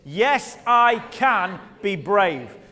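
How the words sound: It is said forcefully, with strong conviction.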